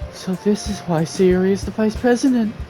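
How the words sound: It is read in a put-on female character voice. The speaker calls it wrong. "that wasn't Monica's voice"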